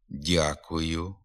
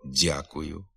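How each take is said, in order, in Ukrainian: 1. М'яке «д» звичайне, без шипіння. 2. М'яке «д» звучить шиплячо, як «дз».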